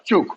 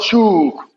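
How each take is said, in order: First: The vowel is kept very short. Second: The vowel is drawn out long. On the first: The speaker calls it right. "It's a very uh, short sound" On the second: The speaker calls it wrong. "it's not shook"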